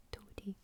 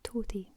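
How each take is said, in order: First: Toty whispered, TOE-tee, very soft; whispered Scots word. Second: Toty said aloud, TOE-tee, falling; Toty voiced; spoken Scots word. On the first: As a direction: breathe Toty quietly. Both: Shown as a demonstration. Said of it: "That just means small".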